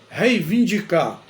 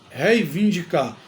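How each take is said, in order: Both takes have the same delivery.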